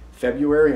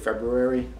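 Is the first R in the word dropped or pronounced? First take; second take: dropped; pronounced. First: The first R sound is left out. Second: The first R sound is clearly pronounced. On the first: The speaker calls it wrong. "Most people say February" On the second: The speaker calls it right. "I pronounce the R that most people don't"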